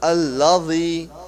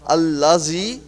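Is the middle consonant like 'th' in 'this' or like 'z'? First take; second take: th; z. First: The middle consonant is a 'th' sound, as in 'this'. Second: The middle consonant is a 'z' sound. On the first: The speaker calls it right. "but rather allazi, because there is a z- a dal here" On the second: The speaker calls it wrong. "we don't have to pronounce it allazi"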